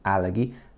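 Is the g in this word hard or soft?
hard. It is said the Japanese way, with a hard g.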